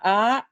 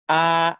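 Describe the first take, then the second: First: The syllable is said with tone three. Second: The syllable is said with the common tone. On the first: "tone three" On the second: "Common tone"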